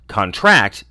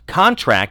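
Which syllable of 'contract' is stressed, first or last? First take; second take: last; first. First: The stress is on the last syllable. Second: The stress is on the first syllable. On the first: It is used as a verb. "verb stresses the last" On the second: It is used as a noun. "the noun form stresses the first syllable"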